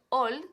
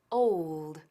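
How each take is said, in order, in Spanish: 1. Old tiene una o simple, como en español. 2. Old tiene un ou con deslizamiento antes de la l. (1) "que no es old" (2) "sino old"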